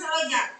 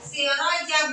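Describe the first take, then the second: First: The first syllable is said with an 'e' vowel. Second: The first syllable is said with an 'i' vowel. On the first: The speaker calls it wrong. "bukan seroja" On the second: The speaker calls it right. "Siroja bukan seroja"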